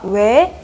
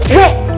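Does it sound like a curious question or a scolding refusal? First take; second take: curious question; scolding refusal. First: It sounds like a curious, genuine question. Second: It sounds like a scolding, refusing 'no'.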